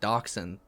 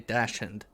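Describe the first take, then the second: First: The word has the usual American pronunciation. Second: The word has the Australian pronunciation. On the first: This is how Americans say it. "they don't pronounce it dachshund" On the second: This is how Australians say it. "They say dachshund. Like how it's written"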